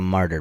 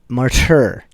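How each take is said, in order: First: The word is pronounced loosely in relaxed speech. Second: The word is pronounced carefully and distinctly. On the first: "if you're just using it in a sentence" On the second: "formal pronunciation might be martyr"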